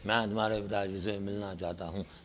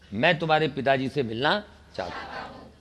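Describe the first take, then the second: First: It is said weakly, without energy. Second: It is said strongly, with full power.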